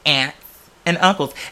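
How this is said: Aunt is said the way white people say it.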